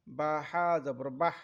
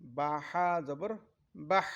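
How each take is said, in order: First: বাহ with the হ breathed out audibly; breathy final h. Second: বাহ drawn out slowly with air leaving the mouth; breathy final h, slower. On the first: Teacher showing the airy হ in বাহ. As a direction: let air escape on the end of বাহ. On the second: Teacher repeating বাহ slowly for students. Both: Shown as a demonstration. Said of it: "এরকম বাতাস বেরিয়ে যাবে মুখ দিয়ে".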